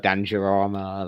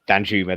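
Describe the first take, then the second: First: The name is said as Dan-ja-ra-ma. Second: The name is said as Dan-ju-ma. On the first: The speaker calls it wrong. "I've murdered it. I keep" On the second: The speaker calls it right. "Danjuma, that's it"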